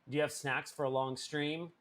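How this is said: It sounds harsh, strict and demanding. The question is a strict demand.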